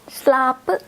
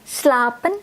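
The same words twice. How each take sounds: First: The final n sound is left off. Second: The final n sound is clearly pronounced.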